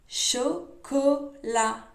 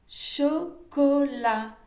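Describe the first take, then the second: The two takes are said the same way.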